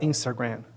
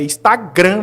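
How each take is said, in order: First: It is said with an English accent. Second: It is said with a Brazilian Portuguese accent. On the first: It sounds like showing off foreign pronunciation. The speaker calls it wrong. "ninguém vai chegar e falar Instagram" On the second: It is the usual local way of saying it. The speaker calls it right. "é Instagram, velho"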